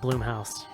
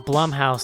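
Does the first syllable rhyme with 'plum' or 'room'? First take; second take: room; plum. First: The first syllable rhymes with 'room'. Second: The first syllable rhymes with 'plum'. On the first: The speaker calls it wrong. "not Bloomhouse" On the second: The speaker calls it right. "it's Blumhouse"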